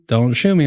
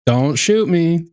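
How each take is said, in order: First: Said in the usual way. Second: Mock plea. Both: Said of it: "I'm being cool".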